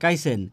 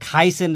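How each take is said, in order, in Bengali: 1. প্রথম ব্যঞ্জনটি অল্পপ্রাণ। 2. প্রথম ব্যঞ্জনটি মহাপ্রাণ। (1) "নেত্রকোনার মানুষ বলে কাইসেন" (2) "খকে ক উচ্চারণ করে"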